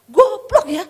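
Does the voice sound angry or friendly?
angry. It is said in an angry, raging tone. The speaker is furious at the mistake. "Kalau dulu dia ngamuk"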